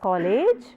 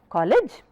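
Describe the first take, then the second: First: The final syllable is said long and full. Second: The final syllable is said short and reduced. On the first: The speaker calls it wrong. "Usually pronounced as" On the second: The speaker calls it right. "learn that it is shorter"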